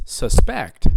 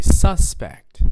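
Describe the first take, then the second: First: Sus-PECT, drawn out on the second beat; second-syllable stress. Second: SUS-pect, strong first beat; first-syllable stress. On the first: Teacher shows another pronunciation, sus-PECT stressed on the end. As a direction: hit the PECT in "suspect". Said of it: "It's on the second syllable". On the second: Teacher leads the class in repeating, SUS-pect stressed up front. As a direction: hit the first syllable of "suspect". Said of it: "I'm stressing a different syllable". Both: Shown as a demonstration.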